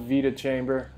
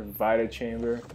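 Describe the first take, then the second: First: Vita said as VEE-tuh; first pronunciation variant. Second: Vita said as VYE-tuh; second pronunciation variant. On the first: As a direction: say Vita with a long "ee". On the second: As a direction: say Vita with an "eye" vowel. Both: Shown as a demonstration. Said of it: "however you, uh, would like to say it".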